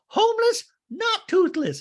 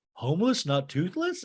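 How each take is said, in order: First: Very high, loud, exasperated parody; hammed-up outraged squawk; mock shrieked correction. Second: Slightly raised, rising echo; imitated baffled check, not shouted; mock puzzled question. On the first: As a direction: screech the correction like an offended patron. Doreen corrects [name]. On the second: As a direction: ask it back innocently, in mild confusion. [name] asks back, puzzled.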